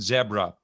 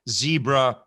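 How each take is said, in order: First: It is said with a British pronunciation. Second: It is said with an American pronunciation. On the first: "It's like zebra and zebra" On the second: "It's like zebra and zebra"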